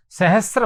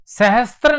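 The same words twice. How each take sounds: First: सहस्र said with no त, just स then र; the right way, सहस्र without t; teacher showing the correct form, सहस्र with no त; correct pronunciation. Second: सहस्त्र said with an extra "त" before र; the wrong way, सहस्त्र with a t sound; teacher showing the common error, सहस्त्र with त; wrong pronunciation. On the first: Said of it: "सहस्र होता है". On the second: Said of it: "सहस्त्र नहीं होता है". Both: Shown as a demonstration.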